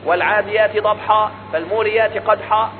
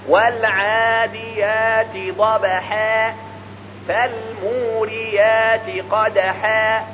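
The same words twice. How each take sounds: First: The h sound is heavy and thick. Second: The h sound is light and thin. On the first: The speaker calls it wrong. "ينطقها كما تعلمها" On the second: The speaker calls it right. "الحاء من حروف الترقيق"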